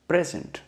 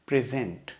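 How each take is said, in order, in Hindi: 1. ज़ोर पहले अक्षर पर है। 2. ज़ोर दूसरे अक्षर पर है। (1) "जब इसको नाउन या एडजेक्टिव की तरीके से इस्तेमाल किया जाएगा" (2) "मेरा जोर जो पड़ रहा है वर्ड में, वो उसके सेकंड पार्ट पे पड़ रहा है"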